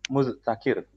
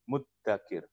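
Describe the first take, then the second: First: A th-like sound is followed by a t. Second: A long doubled d sound is heard. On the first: "mim zal ta kaf ro" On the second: "Pakainya dal"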